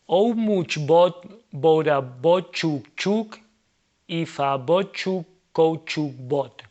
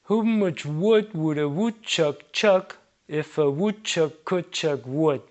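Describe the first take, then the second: First: Words are read with full Spanish sounds throughout. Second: Reduced vowels give a near-English pronunciation. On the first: The speaker calls it wrong. "Without respecting the rules of English pronunciation in Spanish" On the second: The speaker calls it right. "This already sounds a lot more like correct"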